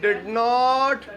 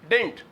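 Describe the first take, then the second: First: It is said as two separate full words. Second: It is squeezed down further into one short syllable.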